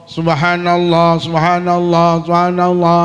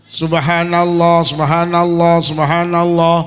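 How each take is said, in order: The two takes are said the same way.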